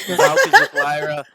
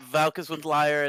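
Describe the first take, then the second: First: Shrill battle cry pitch; high loud shout. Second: Said in the usual way. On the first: Pretend. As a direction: yell it way up high. Player declares, then repeats plainly.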